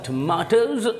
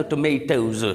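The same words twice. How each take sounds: First: Tomatoes the British way, "tuh-MAH-tohz"; British pronunciation. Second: Tomatoes the American way, "tuh-MAY-tohz"; American pronunciation. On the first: Teacher reads the example sentence, British "tuh-MAH-tohz". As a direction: give tomatoes a long British "ah". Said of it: "British people pronounce it tomato". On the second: Teacher gives the plural for students, American "tuh-MAY-tohz". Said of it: "American people इसी word को यूँ". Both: Shown as a demonstration.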